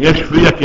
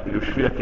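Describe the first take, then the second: First: يشفيك opening on ya, "yashfik"; fatha on first letter. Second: يشفيك opening on yu, "yushfik", softly; damma on first letter. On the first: Teacher gives the healing reading, ya- in يشفيك. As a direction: put an a vowel on the ya of يشفيك. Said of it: "يبرئك من السم". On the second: Teacher shows the harmful misreading, yu- in يشفيك. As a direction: softly put a u vowel on the ya of يشفيك. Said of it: "شوف الضم عملت ايه؟". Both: Shown as a demonstration.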